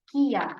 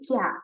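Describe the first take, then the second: First: Ki and ya are said as two syllables. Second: Ki and ya merge into one syllable. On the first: "ini kan dibaca kia" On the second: "Sehingga bunyinya menjadi kya"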